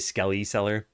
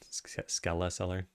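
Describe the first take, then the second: First: The first word ends like 'belly'. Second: The first word ends like 'skeleton'. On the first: Other people say it this way. The speaker calls it wrong. "I've heard a lot of people say Skelly Seller" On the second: The speaker says it this way. The speaker calls it right. "I say it like skeleton"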